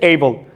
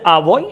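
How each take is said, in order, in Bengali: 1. 'a' শব্দটি লম্বা 'ay' এর মতো শোনায়। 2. 'a' শব্দটি ছোট 'uh' এর মতো শোনায়। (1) "যখন শব্দের মধ্যে উপস্থিত থাকবে এ, এটা এটাকে উচ্চারণ করতে এই" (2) "যখন আর্টিকেল হিসেবে এ বসে, তখন এটা উচ্চারণ করতে হয় আ"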